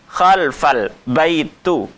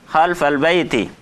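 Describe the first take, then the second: First: The last word ends with a 'u' vowel. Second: The last word ends with an 'i' vowel. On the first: The speaker calls it wrong. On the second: The speaker calls it right.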